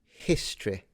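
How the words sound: It is said in a posh, upper-class way. It imitates the upper-class speaker's pronunciation.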